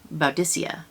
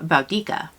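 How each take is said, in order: First: The C is a soft S sound. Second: The C is a hard K sound. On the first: Latin had a soft C then. "there was a soft C at the time, and that it is pronounced" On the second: Latin had no soft C then. "they only had a hard C, so it would be pronounced uh"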